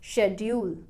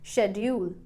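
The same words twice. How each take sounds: First: The stress is on the first syllable. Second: The stress is on the first syllable.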